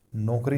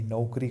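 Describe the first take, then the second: First: नौकरी mispronounced as नोकरी, with o; wrong pronunciation. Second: नौकरी with a clear au vowel; correct pronunciation. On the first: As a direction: flatten the au of नौकरी to o. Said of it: "नौकरी नहीं करनी". (नौकरी में औ की जगह ओ) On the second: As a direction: open the first vowel of नौकरी into au. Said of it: "औ की मात्रा लगेगी". (नौकरी में साफ़ औ) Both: Shown as a demonstration.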